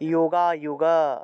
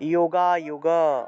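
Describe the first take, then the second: The two takes are said the same way.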